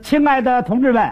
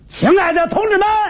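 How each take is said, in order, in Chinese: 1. 这是标准的北京普通话口音。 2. 这是大嗓门、有力的河南口音。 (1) "刚才你看我说的 那是北京话。" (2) "河南一说这么说。"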